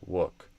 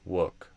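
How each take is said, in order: The two takes are said the same way.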